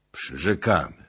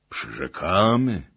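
First: Measured, slightly raised promise; princess promising. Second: Loud, drawn-out echo of a pledge; princes echoing promise. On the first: Princess answering Bohun's demand, restrained pledge. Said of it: "rzekła kniagini". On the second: Princes repeating the princess's promise, loud and drawn out. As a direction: repeat the pledge slowly, like a chorus. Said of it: "powtórzyli kniaziowie". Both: A narrator's reading.

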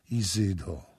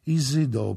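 First: Said in the usual way. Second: Second Izydo higher and louder, pleading; rising desperate plea. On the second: A narrator's reading. Sara begging the goddess Isis, louder second plea. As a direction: cry Izydo harder the second time.

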